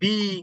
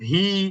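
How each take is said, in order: First: The syllable begins with a b sound. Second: The syllable begins with a v sound. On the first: "অনেকে বলে ওয়াউজের বি ... এইগুলো কোনোটাই না" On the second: "আমরা অনেক সময় বলি ওয়াউজের ভি ... এইগুলো কোনোটাই না"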